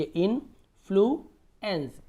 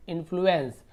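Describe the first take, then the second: First: influence split slowly as "in - flu - ens"; broken into syllables. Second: Said in the usual way. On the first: Shown as a demonstration. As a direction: pause between all three parts of influence. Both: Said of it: "देखिए तोड़िए".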